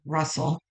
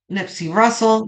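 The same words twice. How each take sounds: First: Russell said softly and carefully; soft correction, Russell; Russell repeated. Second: Russell said firmly, not Hustle; correcting the name to Russell; stress on Russell. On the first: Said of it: "not Hustle, Russell". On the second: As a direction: land clearly on Russell. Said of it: "not Hustle". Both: Shown as a demonstration.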